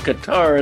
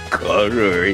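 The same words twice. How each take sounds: First: It is said like ka-TAR, stressing the end. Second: It is said like the word cutter. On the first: This is the usual, everyday way of saying it. The speaker calls it wrong. "technically it's not pronounced Qatar" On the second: This is claimed to be the technically correct way. The speaker calls it right. "it's pronounced Qatar"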